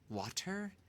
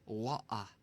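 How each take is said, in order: First: The middle T is clearly pronounced. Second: The middle T is dropped. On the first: "Instead of what, water" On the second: "the T becomes silent"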